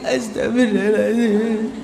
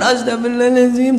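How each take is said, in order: First: It is said in a sad, tearful voice. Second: It is said in a fearful, anxious voice.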